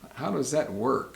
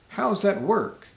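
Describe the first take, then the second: First: The word does is said in full. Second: Does is shortened to a z sound after how. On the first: "a question can be" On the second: "a lot of times we'll say"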